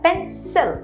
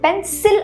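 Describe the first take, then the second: First: The second vowel is a short reduced vowel. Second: The second vowel is a full vowel. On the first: The speaker calls it right. "പെൻസിൽ അവിടെ short sound ആണ് വരുന്നത്" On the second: The speaker calls it wrong. "അല്ല"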